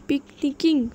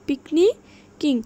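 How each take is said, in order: First: Said in the usual way. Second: পিকনিকিং slow and loud, long gap before কিং; syllable by syllable. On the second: Shown as a demonstration. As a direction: raise পিকনি, pause, then drop on কিং. (পিকনিকিং জোরে, ধীরে, ভেঙে) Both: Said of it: "সিলেবলগুলো ভেঙে ভেঙে".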